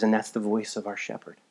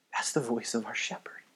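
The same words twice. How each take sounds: First: Said in the usual way. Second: Whispered, much softer; hushed repeat. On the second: Real, not acted. Preacher repeating the key line to the congregation, whispered. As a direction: drop to a reverent whisper.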